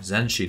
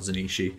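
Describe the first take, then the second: First: The name is said with two syllables. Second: The name is said with three syllables. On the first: The speaker calls it right. "Zenshi, not Zenishi" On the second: The speaker calls it wrong. "I've been saying it wrong"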